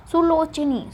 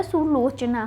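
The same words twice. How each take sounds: First: सुलोचनी with final long i; the mistaken i ending of सुलोचनी; wrong form सुलोचनी. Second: सुलोचना with final long aa; correct form सुलोचना. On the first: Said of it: "सुलोचनी नहीं होता". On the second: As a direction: say सुलोचना ending in naa. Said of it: "सुलोचना होता है". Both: Shown as a demonstration.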